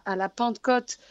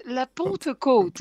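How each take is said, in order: First: Pentecôte with a southern French accent; a slip of southern French accent on Pentecôte. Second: Pentecôte drawn out slowly in a Parisian accent; slow, careful Parisian accent on Pentecôte. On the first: Real, not acted. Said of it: "j'ai eu une belle pointe d'accent du Sud". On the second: Shown as a demonstration. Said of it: "je vais essayer de le dire à la parigote".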